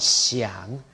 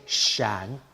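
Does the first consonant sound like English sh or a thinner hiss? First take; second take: thinner hiss; sh. First: The first consonant is a thinner, fronter hiss. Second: The first consonant sounds like English sh. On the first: The speaker calls it right. "rather than 想, where the tongue tip should be behind the lower teeth" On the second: The speaker calls it wrong. "some say 想 ... they're substituting an sh and moving their tongue up"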